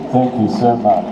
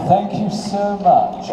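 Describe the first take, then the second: First: Lower, composed thank-you; controlled voice. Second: Said in the usual way. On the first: Shown as a demonstration. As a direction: say it deliberately composed. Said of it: "I'm gonna do, I'm gonna act from up here". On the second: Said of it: "I'm gonna do".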